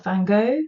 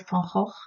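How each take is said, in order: First: The name is pronounced the English way. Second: The name is pronounced the Dutch way. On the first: "in English you would say" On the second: "In Dutch we say"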